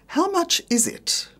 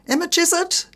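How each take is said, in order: First: It uses the standard pronunciation. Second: It uses the Australian nonstandard pronunciation. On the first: The speaker calls it right. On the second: The speaker calls it wrong. "avoid strine"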